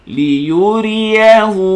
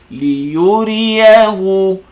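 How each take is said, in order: No difference in how they are said.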